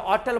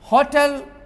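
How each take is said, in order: First: The word begins without any h sound. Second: The word begins with an audible h sound. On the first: This is how it was said in the old days. "एस silent करके होटल बोलता था।" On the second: This is the current pronunciation. "होटल हौ से होता है।"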